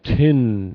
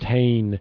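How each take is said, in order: First: The final syllable has a short, reduced vowel. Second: The final syllable has a full 'ay' vowel. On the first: The speaker calls it right. "it's more like tin at the end" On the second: The speaker calls it wrong. "instead of saying"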